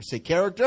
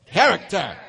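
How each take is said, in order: First: Said in the usual way. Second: Punchy "Character" with sass; with attitude. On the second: Shown as a demonstration. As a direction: give "Character" some attitude, loud. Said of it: "Say it with attitude".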